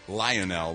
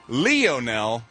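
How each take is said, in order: First: The first syllable sounds like 'lion'. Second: The first syllable sounds like 'Leo'. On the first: The speaker calls it wrong. "not Lionel, like lion" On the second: The speaker calls it right. "Pronounces his name Lionel, like Leo"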